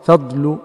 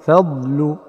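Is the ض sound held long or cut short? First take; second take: short; long. First: The ض sound is cut short. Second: The ض sound is held long. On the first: The speaker calls it wrong. "أو أن يقلش زمن رخاوة واستطالة الضاد" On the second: The speaker calls it right. "فتقول في مثلا في نحو قوله تعالى ذلك فضل الله"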